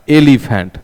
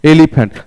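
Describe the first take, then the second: First: एलिफेंट said as e-li-phent, clear e at start; teacher modelling एलिफेंट with a clean e sound; sound model. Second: Put-on teacher repeats एलिफेंट so the child hears the e; repeat the sound. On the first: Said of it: "तो sound क्या आता है?". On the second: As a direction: stress the first e of एलिफेंट for the class. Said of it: "देखेंगे राजा". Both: Shown as a demonstration.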